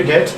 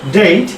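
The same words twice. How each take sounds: First: ডেট with a short flat E, like "det"; common mistaken date. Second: ডেট as "deit", with an EI glide; correct English date. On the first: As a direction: say ডেট without any glide. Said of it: "আমরা যদি বলি ডেট". (ডেট, ছোট "এ" দিয়ে) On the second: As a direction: draw ডেট's vowel from E into I. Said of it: "আমাদের ভুল হয় অনেকেরই". (ডেট, "ডেইট"-এর মতো) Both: Shown as a demonstration.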